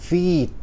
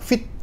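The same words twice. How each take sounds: First: The vowel is long and unstressed. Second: The vowel is short and stressed. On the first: The speaker calls it right. "bacanya panjang nggak ditekan" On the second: The speaker calls it wrong. "bukan baca feed, bukan gitu"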